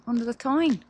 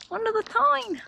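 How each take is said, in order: First: Said in the usual way. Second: "Under the Tyne!" thrown up high with delight; excited. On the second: Real, not acted. Cyclist thrilled riding the tunnel, squeals "Under the Tyne!". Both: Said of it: "How cool's that though?".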